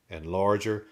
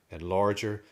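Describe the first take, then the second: No difference in how they are said.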